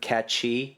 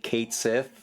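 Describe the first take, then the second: First: The first syllable rhymes with 'cat'. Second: The first syllable rhymes with 'gate'. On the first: The speaker calls it right. "instead of Cat Chi" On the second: The speaker calls it wrong. "patting themselves on the back for saying Kate Sith"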